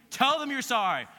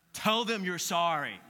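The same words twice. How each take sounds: First: Higher, louder repeat of the order; a stern mother insisting the second time; insistent mom. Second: Mom's order. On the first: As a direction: mom pressing harder. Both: Retold or imitated. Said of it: "your mom says what".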